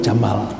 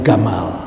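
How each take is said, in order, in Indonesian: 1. Kata ini diawali dengan bunyi j. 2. Kata ini diawali dengan bunyi g keras. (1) "bahasa Arabnya unta itu jamal" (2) "Orang Mesir itu kalau baca jim itu dibaca gah"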